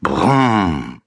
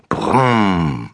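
First: Falling engine rumble brumm; boy playing toy car noise. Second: Falling car-engine brumm; child making a car noise; toy car brumm. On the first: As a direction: drone the Brumm like a motor. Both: A narrator's reading. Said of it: "macht er dabei".

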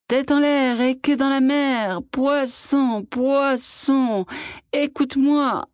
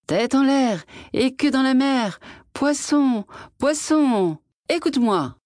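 First: Put-on high, husky old man's call; old hoarse voice. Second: Higher sing-song call across the water. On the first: Old fisherman calling the fish at dawn, hoarse voice. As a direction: rasp the chant out with a cold in the throat. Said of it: "de sa vieille voix grippée". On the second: Fisherman calling the magic fish from shore, sing-song call. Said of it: "et il cria". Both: A narrator's reading.

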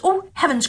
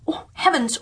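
First: Much higher astonished dwarfs; astonished cry. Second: Higher, mildly astonished dwarfs; a first small gasp of wonder; mild astonishment. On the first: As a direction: cry out in wonder, higher still. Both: Acted. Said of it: "cried they".

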